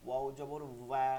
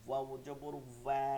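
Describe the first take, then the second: No difference in how they are said.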